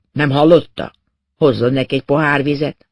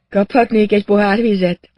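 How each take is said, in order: First: Mildly gruff, firm command; snapped order. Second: Higher voice, lightly raised question; patient's polite request. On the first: A narrator's reading. Inspector orders his companion to fetch water, mildly snapping. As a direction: give a brisk, understated reprimand. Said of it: "és rám dörrent". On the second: Acted. Revived patient asks inspector for water, higher-pitched. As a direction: ask for it in a lifted patient's voice.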